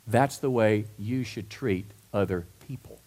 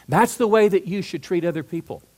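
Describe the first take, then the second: First: Lower, restrained delivery with pauses between words; measured statement. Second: "That's the way" pitched high and pushed louder; emphatic repeat. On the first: Preacher giving the congregation Jesus's teaching, measured and restrained. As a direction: set the teaching down gently, word by word. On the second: Preacher pressing the teaching on the congregation, emphatic and raised. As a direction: drive home "That's the way" in one firm run. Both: Real, not acted.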